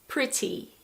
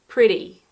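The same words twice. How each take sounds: First: British accent, with a clear T sound. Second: American accent, with a D-like T sound.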